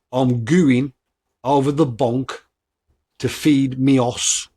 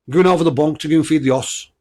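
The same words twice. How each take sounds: First: Slow Black Country phrase in separate chunks; slow repeat. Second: Louder, higher Black Country saying in one run; Black Country at speed. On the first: Podcaster repeating a saying for listeners, slowly. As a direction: say it slowly, pausing between the parts. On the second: Podcaster testing listeners on a saying, Black Country accent in one go. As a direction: rattle off the Black Country phrase without pauses. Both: Shown as a demonstration. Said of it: "I'll say it again slowly".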